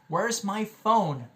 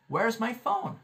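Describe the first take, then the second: First: Slow, higher-pitched question, each word spaced; slow model question. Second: Said in the usual way. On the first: Shown as a demonstration. Teacher models an everyday question, slowly and clearly spaced. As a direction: draw out "Where's my phone" for learners. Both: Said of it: "A gente sempre faz essa pergunta".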